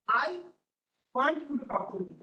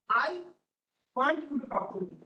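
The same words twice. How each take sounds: First: The stress is on "I". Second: The stress is on "I".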